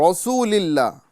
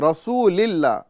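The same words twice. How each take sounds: No difference in how they are said.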